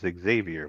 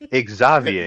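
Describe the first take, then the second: First: The name is said with the usual English pronunciation. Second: The name is said with a non-English pronunciation. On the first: This is how English speakers normally say it. "what we would normally say as Xavier" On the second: This is how the show's characters pronounce it. "they literally say Xavier. That is how they pronounce it"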